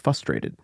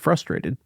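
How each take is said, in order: First: The opening 'fr' sound is not clearly said. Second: The opening 'fr' sound is said clearly. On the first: It imitates how someone else says it. The speaker calls it wrong. "He can't say fr, fr, fr. ... So he says frustrated" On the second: It is the usual way to say it. The speaker calls it right. "it's not how you say frustrated"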